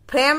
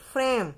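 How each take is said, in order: First: फ्रेम with an aspirated ph, as "phrem", said higher and louder; the teacher's wrong take of फ्रेम, with ph; wrong pronunciation. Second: फ्रेम with an f sound, as "frem"; the correct फ्रेम: the lips make an f, "frem"; फ्रेम as "frem", with the nukta f; correct pronunciation. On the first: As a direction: stress the wrong way: फ्रेम as "phrem", with a puff of air after the p. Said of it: "फ्रेम नहीं". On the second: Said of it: "उसका उच्चारण होगा फ्रेम". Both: Shown as a demonstration.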